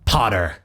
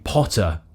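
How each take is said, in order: First: The first vowel is unrounded, in an American way. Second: The first vowel is rounded, in a British way. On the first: "the more American version of the sound" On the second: "Instead of them saying Potter"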